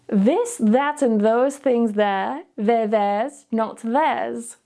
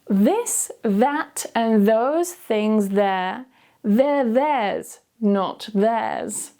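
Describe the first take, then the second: First: It is said at normal speed. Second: It is said slowly. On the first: "then I'll say it at a normal speed" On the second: "I'll say it slowly first"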